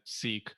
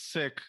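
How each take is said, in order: First: The vowel is long, as in 'seek'. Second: The vowel is short, as in 'sick'. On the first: The speaker calls it wrong. "I might have mistakenly said seek" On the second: The speaker calls it right. "in actuality, it's sick"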